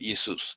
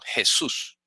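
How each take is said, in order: First: It begins with an ee vowel sound. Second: It begins with a throaty J consonant. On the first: This is how the Greeks said it. The speaker calls it right. "así, porque así es en griego" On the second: This is the modern Spanish form. The speaker calls it wrong. "nos ha puesto a decir ahora en castellano Jesús"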